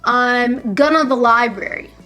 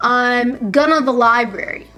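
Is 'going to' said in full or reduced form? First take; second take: reduced; reduced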